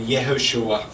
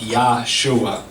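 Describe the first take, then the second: First: The name starts with a light 'Yeh' sound. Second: The name starts with a full 'Yah' sound. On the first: The speaker calls it right. "it's still pronounced like Yeshua or Yehoshua" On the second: The speaker calls it wrong. "you don't pronounce it like Yahshua. It just doesn't work like that"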